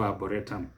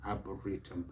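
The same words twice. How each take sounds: First: Arboretum as ah-buh-RE-tum; mispronunciation. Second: Arboretum as ah-buh-REE-tum; E sound. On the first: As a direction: put a short "e" in the third syllable of arboretum. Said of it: "never arboretum". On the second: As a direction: give arboretum a long "ee" in the third syllable. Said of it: "Give it an e sound". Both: Shown as a demonstration.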